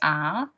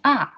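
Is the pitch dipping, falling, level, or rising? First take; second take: rising; falling. First: The pitch rises from middle to high. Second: The pitch falls sharply from high to low. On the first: "second one is R" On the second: "the fourth one is R"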